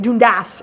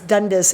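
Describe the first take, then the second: First: Dundas is said with a Scottish pronunciation. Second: Dundas is said with an American pronunciation.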